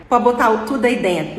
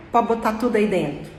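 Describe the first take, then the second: First: Each word said out in full, "pode botar o tudo aí dentro" clearly separated; careful full form. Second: "Pode botar tudo aí dentro" run together, quick and reduced; linked fast speech. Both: Shown as a demonstration. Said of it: "Foi uma coisa mais ou menos assim".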